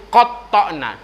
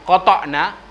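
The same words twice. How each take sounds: First: "qata'na" with the t doubled and held; with tasydid. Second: "qata'na" with a single, undoubled t; without tasydid. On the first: Preacher showing the congregation the Qur'anic reading, doubled t. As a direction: hold the t in "qata'na" before releasing it. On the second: Preacher showing the congregation the wrong reading, undoubled t. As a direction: say "qata'na" with a short, light t. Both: Shown as a demonstration. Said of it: "di atas huruf to itu ada tasydid".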